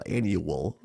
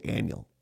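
First: Annual with the U sounded, AN-yoo-ul; spelled-out annual. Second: Annual run together as AN-yul; Southwest Wisconsin annual. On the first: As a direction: give annual all three syllables, AN-yoo-wul. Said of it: "there's a U or a W". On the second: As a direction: say annual in two syllables, AN-yul. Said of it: "we say annual". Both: Shown as a demonstration.

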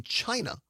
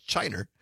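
First: Said in the usual way. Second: CHINA said as "CHINE-er", with an r on the end; Ken Lewis. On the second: Retold or imitated. Host quoting how an old acquaintance said it, "China" as "Chiner". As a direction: end "China" on an -er sound, pitched low. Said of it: "as Ken Lewis used to call it".

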